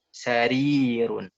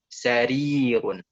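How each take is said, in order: The two takes are said the same way.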